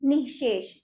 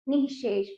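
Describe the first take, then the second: First: The word is said joined as one unit. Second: The same.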